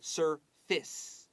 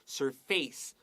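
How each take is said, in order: First: The last syllable has a short 'i' vowel. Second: The last syllable rhymes with 'face'. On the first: The speaker calls it right. "这个短那个 a 你写短 i 的发音" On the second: The speaker calls it wrong. "它发音不是 surface"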